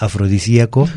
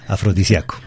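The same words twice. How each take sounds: First: "afrodisíaco" with stressed í, a-fro-di-sí-a-co. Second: "afrodisíaco" as a-fro-di-sia-co, A stressed. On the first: Teacher contrasting accented form, stress on I. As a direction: push the í in "afrodisíaco". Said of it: "esa letra es la que tiene que sonar fuerte". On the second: Teacher giving the unaccented form, stress on A. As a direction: glide the i, weight on a in "afrodisíaco". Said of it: "la vocal que suena fuerte es la A". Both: Shown as a demonstration.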